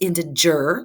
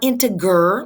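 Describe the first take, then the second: First: The g sounds like the g in giraffe. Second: The g sounds like the g in garage. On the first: The speaker calls it right. "it's integer like giraffe" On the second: The speaker calls it wrong. "not integer like garage"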